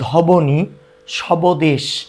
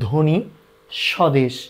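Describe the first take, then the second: First: A b sound follows the first consonant. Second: No b sound follows the first consonant. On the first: The speaker calls it wrong. "এভাবে করে কেউ উচ্চারণ করি না" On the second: The speaker calls it right. "আমরা করি ধ্বনি স্বদেশ"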